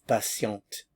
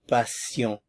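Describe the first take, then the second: First: The final t sound is pronounced. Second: The final t sound is silent. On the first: This is the feminine form. "notice how the pronunciation changes" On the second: This is the masculine form. "Notice I'm not pronouncing the end here"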